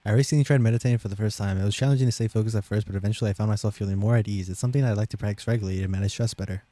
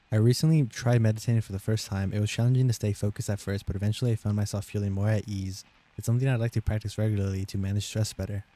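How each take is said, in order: First: Fast, hurried read-aloud; gabbling the test sentences at top speed; rushed read. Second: Measured test-sentence read; steady read-aloud pace. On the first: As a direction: race through the paragraph as fast as possible. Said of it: "as fast as possible". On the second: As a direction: read the paragraph out carefully. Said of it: "I'll read it slower". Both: Shown as a demonstration.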